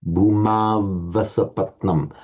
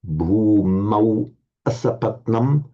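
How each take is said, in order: First: The words are joined by a v sound. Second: The words stay separate, ending in 'au'. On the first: "with the sandhi bhumava" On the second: "here it's written without the sandhi"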